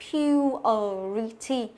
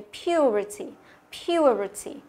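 First: "purity" syllable by syllable, pyu-ə-ri-ty; slow, clear articulation. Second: "purity" run together, schwa barely touched; quick, light schwa. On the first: Teacher showing the hidden schwa, slow and separated. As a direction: spell out each sound of "purity" slowly. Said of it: "đọc, đọc rõ là". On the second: Teacher showing natural reading, schwa light. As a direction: say "purity" smoothly with a faint ə. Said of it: "Nó đọc nhanh, âm ờ mình đọc nhẹ thôi". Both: Shown as a demonstration.

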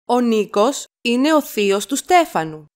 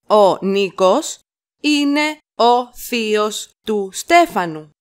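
First: Said in the usual way. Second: Slow it down for learners; slow chunked repeat. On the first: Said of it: "teacher models sentence". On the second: Shown as a demonstration. Teacher to learners, slow chunked model. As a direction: pause after Νίκος, then the rest. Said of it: "teacher repeats in chunks".

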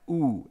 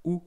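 First: A long, held "oo"; lengthened "oo" sound. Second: A short, quick "oo"; clipped short vowel on "oo". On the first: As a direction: hold the vowel in "oo" out. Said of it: "if it's a long one". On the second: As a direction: say "oo" briefly, without holding it. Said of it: "and oo if it's a long one". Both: Shown as a demonstration.

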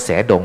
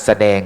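First: แสดง misread as "sae-dong". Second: แสดง as "sa-daeng"; correct reading of แสดง. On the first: Monk warning listeners off a misreading, แสดง said as "sae-dong". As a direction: split แสดง wrongly into sae plus dong. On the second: Monk giving listeners a comparison word, แสดง said as "sa-daeng". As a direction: read แสดง correctly, short sa then daeng. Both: Shown as a demonstration. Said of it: "ไปอ่านว่าแสดงไม่ได้นะ".

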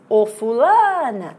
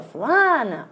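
First: Drawn-out call on "fulana", rising on LA, then falling; calling at the gate. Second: "Fulana" alone, LA lifted high and held; calling at the gate. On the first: Teacher showing students the wrong gate call, calling out "fulana" with a long LA. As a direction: stretch the LA of "fulana" long and loud, after a leading "Ô". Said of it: "Quando você chama a palavra no portão". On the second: Teacher showing how to find the tonic syllable, calling "Fulana" with raised LA. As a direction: call "Fulana" with a long, raised LA that falls at the end. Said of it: "Não, é só fulano".

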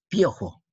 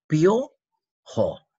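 First: Said in the usual way. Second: Louder, higher "piojo", pio, pause, jo; split into syllables. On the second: Shown as a demonstration. Teacher showing vowel concurrence, "piojo" split by syllables. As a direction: break "piojo" after a stretched pio.

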